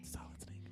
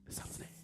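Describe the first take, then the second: First: It is spoken in a normal voice. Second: It is spoken in a whisper.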